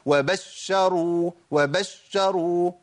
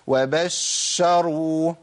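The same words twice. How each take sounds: First: ش in وبشروا shoved out with a stress; pushed shin. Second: Doubled ش in وبشروا held too long; overlong shin. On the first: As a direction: punch into the doubled ش of وبشروا. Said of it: "دفع ونبرة عند الشين". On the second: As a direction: drag out the shhh in وبشروا. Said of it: "ولا زود زمن الشين الساكنة". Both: Shown as a demonstration.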